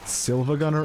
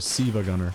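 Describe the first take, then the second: First: The first word has an L sound. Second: The first word has no L sound. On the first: The speaker calls it wrong. "it's not Silva Gunner" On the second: The speaker calls it right. "one of those is correct"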